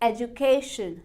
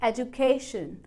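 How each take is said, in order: First: The stress falls on the third syllable. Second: The same.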